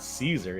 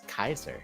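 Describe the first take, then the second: First: The name begins with a soft S sound. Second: The name begins with a hard K sound. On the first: This is the usual English form of the name. "It's not Caesar" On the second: This is the classical Latin form of the name. "it's a hard C in, in in classical Latin"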